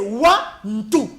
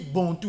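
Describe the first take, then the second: First: The word begins with a W sound. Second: The word begins with a B sound. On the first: The speaker calls it right. "Au sein de lui, c'est Wa-Ntou" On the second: The speaker calls it wrong. "on dit Bantou. Non, ça dénature carrément"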